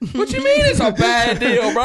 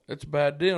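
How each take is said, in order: First: High, loud incredulous comeback; alarmed disbelief. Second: Said in the usual way. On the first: Retold or imitated. Freaked-out passenger challenging his friend's weather verdict, loud disbelief. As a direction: yell it back in comic panic. Retold panicked reply to friend.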